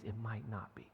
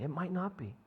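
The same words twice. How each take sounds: First: Whispered, hushed aside. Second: Said in the usual way. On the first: Shown as a demonstration. Pastor telling the congregation pain may not end, whispered. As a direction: drop to a whisper on the hard truth.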